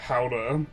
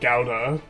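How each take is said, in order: First: It is pronounced the Dutch way. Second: It is pronounced the common English way. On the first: "but the Dutch is similar to uh" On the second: "In English, Gouda is commonly pronounced as uh"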